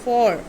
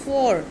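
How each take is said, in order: First: The vowel sounds like 'aw'. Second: The vowel sounds like 'aw'.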